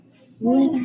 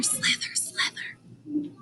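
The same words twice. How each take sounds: First: Said in the usual way. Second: Whispered "slither, slither" fading out; silent slither. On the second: Shown as a demonstration. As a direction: hiss it like a sneaking snake. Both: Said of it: "slithering silently".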